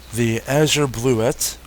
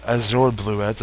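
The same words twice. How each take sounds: First: "azure" as AZH-er, weak second syllable; unsure pronunciation. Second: "azure" as az-OR, full second syllable; alternative pronunciation. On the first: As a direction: say "azure" with a short, reduced ending. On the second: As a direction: say "azure" ending like "or". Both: Shown as a demonstration. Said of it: "don't know how to pronounce that".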